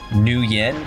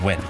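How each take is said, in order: First: The name is said with two syllables. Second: The name is said as one syllable. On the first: The speaker calls it wrong. "which most Americans say Nguyen, which is not apparently the way you pronounce it" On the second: The speaker calls it right. "It's actually pronounced Win, because apparently it's a monosyllabic"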